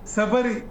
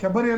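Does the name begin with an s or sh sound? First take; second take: s; sh. First: The name begins with an 's' sound. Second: The name begins with a 'sh' sound. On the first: The speaker calls it right. "ಅಲ್ಲ ಸಬರಿ" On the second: The speaker calls it wrong. "ಶಬರಿ ಅಲ್ಲ"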